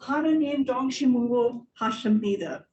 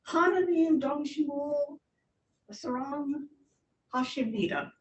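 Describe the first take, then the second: First: Firm, connected second attempt; retried, more fluent. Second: Halting first attempt. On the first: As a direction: run the foreign phrase together without breaks. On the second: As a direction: piece by piece, pausing between words. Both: Shown as a demonstration. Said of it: "Try it again".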